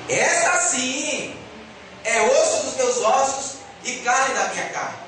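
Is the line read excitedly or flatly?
excitedly. It is read with excited, exclamatory emphasis. The speaker is thrilled by what he sees. The speaker calls it right. "há um ponto de exclamação no final da frase"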